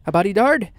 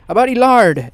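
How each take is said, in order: First: Said in the usual way. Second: "body lard" said louder, as a pun on "bodyguard". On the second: Shown as a demonstration.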